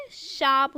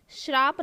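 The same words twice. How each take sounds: First: "शाप" as shaap, straight from sh to aa; correct, no r. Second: "श्राप" with r after sh, shraap; wrong added r. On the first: Teacher correcting the word, pronounced properly. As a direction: say "शाप" without any r. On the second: Teacher quoting the error to students, mispronounced. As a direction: slip an r into "श्राप". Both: Shown as a demonstration. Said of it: "श्राप ना होके शाप है".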